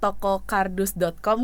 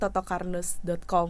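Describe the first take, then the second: First: The opening syllables are articulated clearly and separately. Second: The opening syllables blur together and sound unclear. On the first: The speaker calls it right. "toko kardus dot com kan" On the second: The speaker calls it wrong. "kedengarannya totokardus dot com gitu. Jadi kayak kurang jelas"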